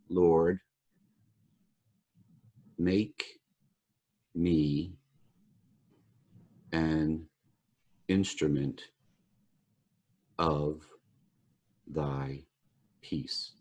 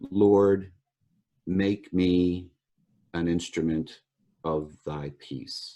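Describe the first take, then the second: First: It is said very slowly. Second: It is said at a normal pace.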